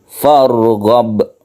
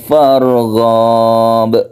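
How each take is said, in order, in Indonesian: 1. Setiap vokal dalam kata itu dibaca pendek. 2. Sebuah vokal dalam kata itu dibaca panjang. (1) "Yang betul farghab, pendek saja" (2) "Kadang-kadang kita temui farghab, padahal ini pendek"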